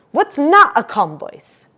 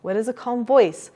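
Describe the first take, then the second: First: "What's not a calm voice" said louder, higher and slower; loud upset demo. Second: Said in the usual way. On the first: Shown as a demonstration. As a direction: act out an agitated voice for the child. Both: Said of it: "show them the difference".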